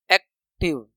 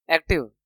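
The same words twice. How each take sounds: First: active split as एक, pause, टिव; long gap inside active, softer and lower; broken into syllables. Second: Said in the usual way. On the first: Shown as a demonstration. Teacher showing where the sound breaks, active split. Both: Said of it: "एक sound टूट रहा है".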